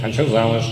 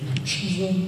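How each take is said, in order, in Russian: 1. Сказано нетерпеливым, требовательным тоном. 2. Сказано неуверенным, сомневающимся в себе тоном. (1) "Сколько я буду ждать, пока меня возьмут замуж?" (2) "Внутри я, конечно, чувствую, что такую дрянь замуж истеричку брать не надо"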